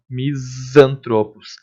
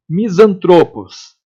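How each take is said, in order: First: Slow "Misantropos" with the s held as a buzzing z; drawn-out Z sound. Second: Said in the usual way. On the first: Shown as a demonstration. Teacher demonstrating the sound to students, "Misantropos" with a long z. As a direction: linger on the z sound inside "Misantropos". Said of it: "Faz esse som, ó". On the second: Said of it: "Faz esse som".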